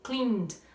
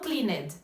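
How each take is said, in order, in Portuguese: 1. A palavra termina com som de D. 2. A palavra não termina com som de D. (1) "a gente usa o som de D" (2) "Não"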